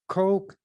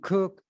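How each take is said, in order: First: The name rhymes with the word coke. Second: The name rhymes with the word cook. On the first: "Some people pronounce it who's who has that as a name"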